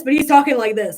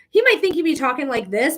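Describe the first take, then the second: First: Louder, showing how loud the dad talked; louder demo of his volume. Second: Said in the usual way. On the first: Shown as a demonstration. Medium imitates the late dad's loud talking, louder. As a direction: push it up to show his booming volume.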